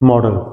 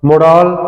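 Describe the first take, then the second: First: The ending has a short, weak vowel. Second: The ending has a full, long 'ah' vowel. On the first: The speaker calls it right. "ये मॉडल ही होता है" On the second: The speaker calls it wrong. "ऐसे लगता है जैसे वो French बोल रहे हो"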